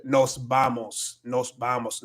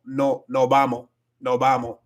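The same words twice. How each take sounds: First: Said in the usual way. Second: "no vamos" with the final s dropped, "no bamo"; Dominican no vamos. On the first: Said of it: "en lugar de decir". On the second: Shown as a demonstration. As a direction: say "no vamos" Dominican style, swallowing the s. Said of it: "van a decir cosas como".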